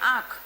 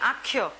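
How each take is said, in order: First: The word ends plainly on the kh sound. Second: The word ends with a y-like glide after kh. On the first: This is the standard form. "આપણે એમ કહીએ કે" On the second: This is the Charotari dialect form. "એ લોકો શું કે"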